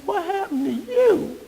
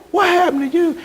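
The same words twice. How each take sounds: First: Higher, hushed, slow inner aghast question; inner disbelief. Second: Higher, aghast at how she looks; stunned what happened; shocked question. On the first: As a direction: think it in shocked silence. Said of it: "But in my heart, I'm like". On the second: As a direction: blurt it out in disbelief. Shocked at aged old flame. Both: Retold or imitated.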